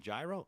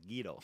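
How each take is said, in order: First: It is pronounced like gyro. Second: It is pronounced like guido. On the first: "you want a gyro?" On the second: "no, I want a Guido"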